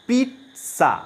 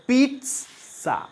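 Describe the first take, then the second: Both takes have the same delivery.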